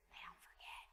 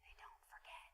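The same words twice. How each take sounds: First: Quiet, breathy aside; hushed warning. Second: Whispered echo. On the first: Pastor warning parents that kids remember, hushed. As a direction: drop it down low as a knowing warning. Repeating point to congregation, hushed. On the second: Pastor echoing to parents that kids never forget, whispered. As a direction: whisper it even softer. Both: Acted.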